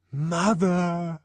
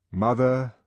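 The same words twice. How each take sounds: First: High called-out "Mother!"; the child's cry for mother. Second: Said in the usual way. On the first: Acted. Child crying out.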